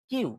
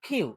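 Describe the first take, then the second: First: Said in the usual way. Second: "কিউ" with a puffed K, like খিউ; loud breathy burst opening "কিউ"; aspirated K. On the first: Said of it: "right accent হলো কিউ". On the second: Shown as a demonstration. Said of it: "right accent হলো". ("কিউ"-এর ক মহাপ্রাণ)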